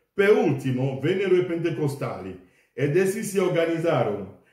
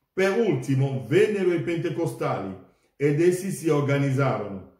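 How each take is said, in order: No difference in how they are said.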